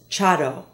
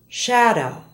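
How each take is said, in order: First: The word begins with a hard ch sound. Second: The word begins with a soft sh sound.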